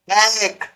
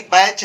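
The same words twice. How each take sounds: First: बैक ending in a hard k; wrong k reading. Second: बैच ending in a ch sound; correct ch reading. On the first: Teacher warning against misreading batch, wrong k. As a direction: close बैक on k. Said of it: "बैक मत पढ़ देना". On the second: Teacher correcting the reading of batch, clear ch. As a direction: finish बैच on ch, not k. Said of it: "बैक नहीं बैच है". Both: Shown as a demonstration.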